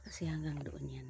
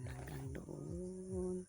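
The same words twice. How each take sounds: First: Said in the usual way. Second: "doon" stretched long and soft to show distance; drawn-out emphasis. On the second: Real, not acted. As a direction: draw out "Hanggang doon" very slowly and quietly. Pointing out how far land goes. (binabanat nang mahaba ang "doon")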